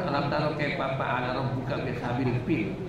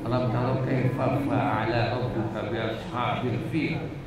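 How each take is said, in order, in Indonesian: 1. Ini dibaca dengan logat Sunda. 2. Ini dibaca dengan lafal Arab Al-Qur'an. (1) "Itu bahasa Sunda ya" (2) "Kalau bahasa Qur'annya"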